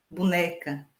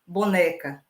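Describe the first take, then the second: First: Boneca said as bunéca, with u and open é; regional pronunciation. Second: Said in the usual way. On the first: Shown as a demonstration. Teacher showing how boneca is said locally as bunéca. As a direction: raise the first o of boneca to u, bunéca. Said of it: "como boneca, boneca".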